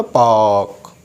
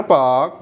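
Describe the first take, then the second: First: पार्क with silent R, "paak"; पार्क, long drawn vowel straight into K; British pronunciation. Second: पार्क with the R pronounced; पार्क, R kept before the K; American pronunciation. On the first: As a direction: drop the R in पार्क. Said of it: "वॉल आया है तो". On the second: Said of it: "आर को हम use करेंगे". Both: Shown as a demonstration.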